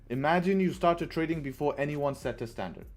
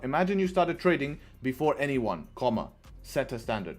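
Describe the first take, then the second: First: It is read straight through without a pause. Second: It breaks with a pause after 'anyone'. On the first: The speaker calls it right. "doesn't need a comma" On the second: The speaker calls it wrong. "It's not"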